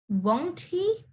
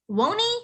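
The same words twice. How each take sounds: First: Each word is pronounced separately and clearly. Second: The words blend together into one reduced form. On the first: "normally you would say it as won't he?" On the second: "when you say it in a sentence, or when you're speaking"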